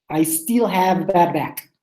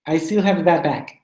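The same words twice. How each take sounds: First: Slow, careful "I still have bad back"; slow model. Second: "I still have a bad back" run together briskly; quicker model. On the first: Teacher models a tricky sentence for the class, slowly. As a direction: spell the sentence out slowly for learners. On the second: Teacher asks students to say it quickly, demonstrating briskly. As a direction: say it in one quicker go. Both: Shown as a demonstration. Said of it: "Can you say it quickly?".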